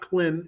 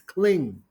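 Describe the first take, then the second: First: The word ends with an m sound. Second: The word ends with an ng sound. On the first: The speaker calls it wrong. "is not Klim" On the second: The speaker calls it right. "it's Kling"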